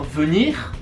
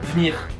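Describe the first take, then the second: First: The e in the first syllable is pronounced. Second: The e in the first syllable is dropped. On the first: "On va pas dire venir" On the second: "on va dire venir"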